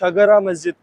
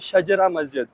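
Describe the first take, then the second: First: The first word has a g sound in the middle. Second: The first word has a j sound in the middle. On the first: This is how the local Arabs say the name. "यहाँ के जो अरबी हैं वो इसको" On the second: This is how Urdu speakers say the name. "Urdu बोलने वाले लोग इसको कहते हैं"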